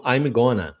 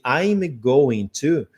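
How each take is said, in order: First: I'm going to squeezed into I'm gonna; reduced form. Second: I'm going to slow, every syllable clear; full form. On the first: Teacher showing students how everyone really says it, blended. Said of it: "todo mundo vai falar assim". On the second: Teacher showing the textbook form before the reduction, slow. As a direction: stretch out I'm going to carefully. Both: Shown as a demonstration.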